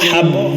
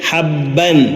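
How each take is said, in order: First: The word ends without an n sound. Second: The word ends with an n sound. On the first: "വഖഫ് ചെയ്യുമ്പോൾ" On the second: "ബ ശദ്ദ ഫത്ഹതൈൻ"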